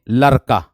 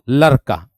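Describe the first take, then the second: Both takes have the same delivery.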